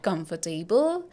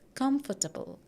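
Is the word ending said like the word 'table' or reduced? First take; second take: table; reduced. First: The ending sounds like the full word 'table'. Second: The ending is reduced, not like 'table'. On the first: The speaker calls it wrong. "people would pronounce it as table" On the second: The speaker calls it right. "Here we are not pronouncing it as table"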